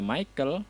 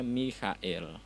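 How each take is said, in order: First: The name is pronounced the English way. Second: The name is pronounced the German way. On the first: The speaker calls it wrong. "sebenarnya tidak dibaca Michael" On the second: The speaker calls it right. "tapi dibacanya Michael"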